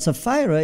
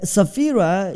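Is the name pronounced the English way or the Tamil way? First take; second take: English; Tamil. First: The name is pronounced in the English way. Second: The name is pronounced in the Tamil way. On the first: "is English way of saying" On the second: "is a Tamil way of saying"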